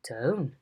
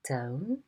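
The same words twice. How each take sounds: First: The pitch rises and then falls. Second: The pitch rises slightly from low. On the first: "a rise fall" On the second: "a low rise"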